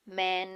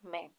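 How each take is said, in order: First: The vowel is drawn out long. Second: The vowel is clipped short. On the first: The speaker calls it wrong. "इस तरह से pronounce करते तो ... long vowel" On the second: The speaker calls it right. "ये short sound है"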